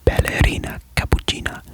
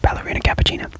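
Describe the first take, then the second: First: It is said in an exaggerated Italian accent. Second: It is said in a plain, unexaggerated accent. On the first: "the crazy Italian accent" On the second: "I'm just gonna go"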